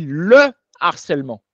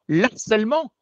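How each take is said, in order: First: The article's vowel is kept, with no linking. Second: The article's vowel is dropped and linked to the noun. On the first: The speaker calls it right. "on dit le harcèlement" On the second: The speaker calls it wrong. "on ne dit pas l'harcèlement"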